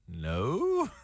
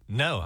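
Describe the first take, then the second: First: The voice rises like a question. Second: The voice falls like a flat refusal.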